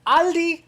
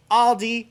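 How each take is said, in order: First: "Aldi" as AHL-dee, open ah and no S; slow, high, emphatic "Aldi" with ah; German pronunciation. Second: "Aldi" as AWL-dee, aw and no S; loud, high "Aldi" with a rounded aw; English pronunciation. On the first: YouTuber corrects viewers, German pronunciation. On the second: YouTuber gives the other accepted version, English pronunciation. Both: Shown as a demonstration. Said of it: "It's pronounced Aldi".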